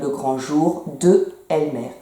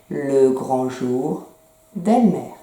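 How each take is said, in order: First: The word de is fully said before Elmer. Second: The d runs straight into Elmer, no vowel. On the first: The speaker calls it wrong. "c'est pas joli de dire" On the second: The speaker calls it right. "on enlève le E et on met l'apostrophe"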